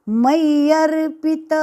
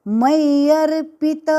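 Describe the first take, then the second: No difference in how they are said.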